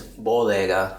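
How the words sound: It is said with a Spanish accent. "But in Spanish is bodega"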